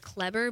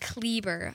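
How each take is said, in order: First: The first vowel is a plain 'e' sound. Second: The first vowel has an added 'a' sound. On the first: The speaker calls it wrong. "everyone pronounces it as Kleber" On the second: The speaker calls it right. "but it's Kleber. I got to add an A to the first E"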